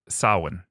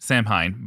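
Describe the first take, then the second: First: It is pronounced unlike the way it is spelled. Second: It is pronounced the way the spelling suggests. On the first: The speaker calls it right. "according to the uh, the Irish storyteller" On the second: The speaker calls it wrong. "you might look at it and say"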